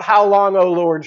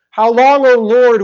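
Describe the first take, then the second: First: Plaintive cry. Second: Anguished cry. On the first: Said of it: "He cries out". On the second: Prophet crying out to the Lord, loud anguished cry. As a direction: cry it out to heaven. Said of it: "crying out to God". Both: Retold or imitated.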